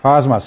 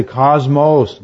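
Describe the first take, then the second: First: Cosmos with a short O in both syllables, "KAHZ-mahs"; demonstrating the short O in Cosmos; correct pronunciation. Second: Cosmos ending in a long O, "KAHZ-mohs"; mocking the long O in cosmos; wrong pronunciation. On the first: Shown as a demonstration. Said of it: "Short O". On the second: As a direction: imitate people saying cosmos with a long O at the end.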